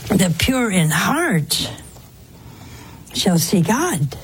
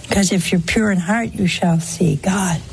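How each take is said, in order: First: Slow emphatic. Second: Said in the usual way. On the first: Real, not acted.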